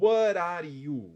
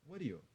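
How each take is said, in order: First: It is said tensely, with careful separate words. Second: It is said relaxed, with loosely joined words. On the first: The speaker calls it wrong. "Eu não falei what are you?" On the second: The speaker calls it right. "bem tranquilo"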